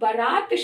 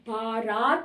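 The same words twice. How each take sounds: First: The first vowel is short. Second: The first vowel is long. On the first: The speaker calls it right. "बा में आ की मात्रा नहीं होती, रा में होती है" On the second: The speaker calls it wrong. "जिसमें बा में आ की मात्रा, ये गलत है"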